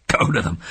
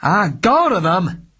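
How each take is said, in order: First: Said in the usual way. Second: Louder, slow raging shout; detective furious at his client; loud with rage. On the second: Acted. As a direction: explode in anger. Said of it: "his voice loud with rage".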